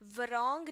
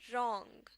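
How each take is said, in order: First: A w sound is heard before the r. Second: The w is silent; it begins with r. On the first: The speaker calls it wrong. "वरॉन्ग नहीं" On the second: The speaker calls it right. "डब्ल्यू को silent कर देना है"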